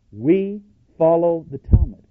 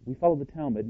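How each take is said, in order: First: Slower, higher, louder on follow the Talmud; preacher driving the quote's last line home; emphatic quote. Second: Said in the usual way. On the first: Acted. Emphatic close of quoted passage.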